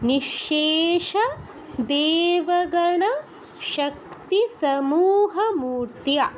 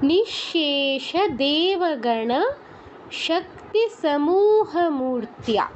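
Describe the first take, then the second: The two takes are said the same way.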